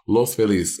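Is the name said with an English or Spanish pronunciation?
Spanish. It is pronounced the Spanish way. "that's how you're supposed to say it"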